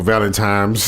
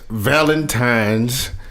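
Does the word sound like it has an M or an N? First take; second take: M; N. First: The middle of the word has an M sound. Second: The middle of the word has an N sound. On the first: The speaker calls it wrong. "I probably used to say that shit when I was little" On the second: The speaker calls it right. "I did say Valentine's with an N"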